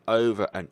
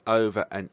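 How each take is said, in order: Both takes have the same delivery.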